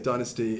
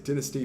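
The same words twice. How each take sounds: First: It is said with an American pronunciation. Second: It is said with a British pronunciation. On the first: "in America they say dynasty" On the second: "in the U K we say dynasty"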